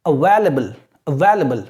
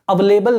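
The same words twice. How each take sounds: First: "available" as a-VAIL-uh-bul; correct pronunciation. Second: "available" with a full "lay", a-va-LAY-bul; wrong pronunciation. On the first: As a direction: model "available" with stressed VAIL and short "la". ("available" को "अवेलबल" बोलें) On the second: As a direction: say "available" as if it held the word "lable". ("available" को "अवेलेबल" बोलें) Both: Shown as a demonstration. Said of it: "available नहीं".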